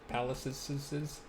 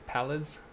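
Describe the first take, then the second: First: It ends with an added 'iz' syllable. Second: It ends without an added 'iz' syllable. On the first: "if you put the extra S on there, then you feel like you have to pronounce it" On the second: "If I'm saying that right"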